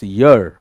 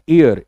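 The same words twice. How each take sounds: First: The word begins with a clear y sound. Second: The word begins with a plain vowel, no y. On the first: It means a twelve-month period. The speaker calls it right. "The right pronunciation is this ईयर" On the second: It means the body part used for hearing. The speaker calls it wrong. "It's not ईयर"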